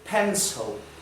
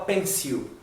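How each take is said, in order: First: The word is said in a native-style pronunciation. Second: The word is said in a learner-style pronunciation. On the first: The speaker calls it right. "Isso aqui é pronunciado pencil" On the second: The speaker calls it wrong. "A gente aprende na escola pencil. E essa pronúncia não é correta"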